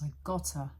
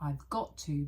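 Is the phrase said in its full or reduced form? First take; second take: reduced; full. First: The words are squeezed together into a reduced form. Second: Each word is said in full, separately.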